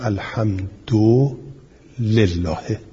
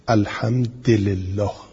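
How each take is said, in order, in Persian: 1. د u دارد و ل i دارد. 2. د i دارد و ل i دارد. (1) "اجماع قراء اینه که بگویم الحمد لله" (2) "در شواز به کسر دال و لام"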